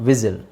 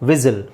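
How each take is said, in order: Both takes have the same delivery.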